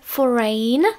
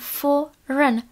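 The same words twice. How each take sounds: First: The last syllable sounds like 'ein'. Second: The last syllable is short and reduced. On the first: The speaker calls it wrong. "takže ne foreign, žádné ein" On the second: The speaker calls it right. "ale jenom foreign"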